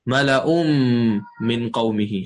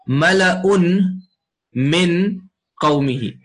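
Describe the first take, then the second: First: The final n merges into the following m. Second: The final n is pronounced separately before min. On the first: It is read with recitation rules. "the tanween and the noon become merged by what's called idgham" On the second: It is read without recitation rules. "if I was to read it without Tajweed"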